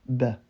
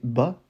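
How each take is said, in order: First: The vowel is a lightened A, nearer E. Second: The vowel is an open French-style A. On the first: The speaker calls it right. "C'est entre le A et le E. On va dire plutôt ba" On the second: The speaker calls it wrong. "on va pas prononcer bas"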